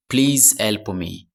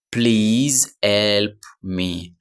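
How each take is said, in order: First: Said in the usual way. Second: Please help me drawn out very slowly; very slow teacher model of Please help me; slow model phrase. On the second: Shown as a demonstration. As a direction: stretch each word of Please help me for learners.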